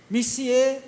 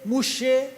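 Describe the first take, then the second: First: The word is said in its full form. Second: The word is shortened to two syllables. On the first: This is the standard French word. "Em francês é" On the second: This is the locally adapted, simplified form. "Eles pegaram e resumiram tudo"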